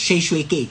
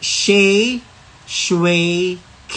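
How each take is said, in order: First: The name is said quickly and run together. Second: The name is said at a normal, unhurried pace.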